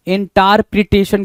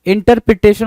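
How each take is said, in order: First: इंटरप्रिटेशन with "taar" instead of "ter"; misspelling read out. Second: Said in the usual way. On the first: Shown as a demonstration. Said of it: "तो इंटर में टार जो लिखा है". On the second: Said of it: "इंटर बोलोगे उसको".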